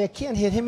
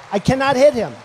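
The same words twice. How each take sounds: First: Said in the usual way. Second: Emphatic. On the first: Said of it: "He's been so nice to me". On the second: Real, not acted. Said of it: "It's true".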